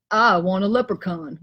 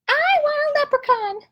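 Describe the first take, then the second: First: Gus's voice. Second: Much higher, small squirrel voice; Squirrel's voice. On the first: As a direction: lower voice for Gus. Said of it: "Gus says". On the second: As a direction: squeak it out like a little squirrel. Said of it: "Squirrel says". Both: Acted.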